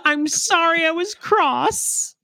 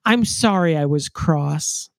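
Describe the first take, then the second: First: High, drawn-out imitation of a child; mock child voice. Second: Slow, deliberate read of the line; measured quote. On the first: Mocking a child's old-fashioned apology, high drawn-out put-on voice. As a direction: push it way up high and slow, hammed-up. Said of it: "that a child would say". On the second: Retold or imitated. Reciting a favorite line from the book, slow and measured. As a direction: draw the quote out without raising the pitch. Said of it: "says my favorite line".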